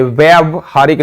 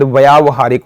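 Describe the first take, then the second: First: व्यावहारिक with a short first vowel, "vyav-haarik"; wrong pronunciation. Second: व्यावहारिक with a long aa, "vyaav-haarik"; corrected pronunciation. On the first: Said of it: "ये व्यावहारिक नहीं होता". (व्यावहारिक को छोटे 'अ' से, "व्यवहारिक" बोलें) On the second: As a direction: stretch व्यावहारिक's first vowel to "vyaa". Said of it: "शायद व्यावहारिक होता है". (व्यावहारिक को लंबे 'आ' से, "व्याव-हारिक" बोलें) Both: Shown as a demonstration.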